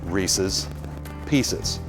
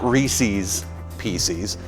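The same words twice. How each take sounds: First: The last syllables have a short, unstressed 'ez' vowel. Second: The last syllables have a long 'ee' vowel. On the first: The speaker calls it right. "His pieces, if you will" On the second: The speaker calls it wrong.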